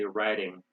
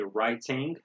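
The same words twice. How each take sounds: First: The middle sound is like a d. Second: The middle sound is a clear t. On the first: "We say" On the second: "They say"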